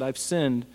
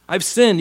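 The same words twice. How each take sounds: First: Said in the usual way. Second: Louder, higher anguished confession; a touch of crocodile tears; hammed-up grief in Saul's voice; mock remorse. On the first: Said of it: "You can hear it in his voice". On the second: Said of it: "You can, you can hear it in his voice".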